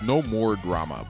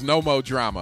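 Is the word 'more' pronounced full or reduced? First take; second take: full; reduced. First: Every word is carefully and clearly enunciated. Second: The word 'more' is clipped to a casual 'mo'. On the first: "If you're going to enunciate" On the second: "we're from downtown"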